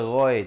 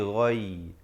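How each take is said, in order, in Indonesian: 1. Vokalnya dibulatkan, seperti 'oi'. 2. Vokalnya terbuka dan tidak dibulatkan, seperti 'ai'. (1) "jangan dibaca ghoi" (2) "ghain baris atas bertemu ya ... tetapi ghai"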